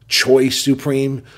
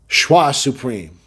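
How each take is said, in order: First: The first word has an anglicized pronunciation. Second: The first word has a French pronunciation. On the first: The speaker calls it wrong. "in the past I said Choi Supreme" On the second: The speaker calls it right. "I'm going to say it like the proper Frenchman way"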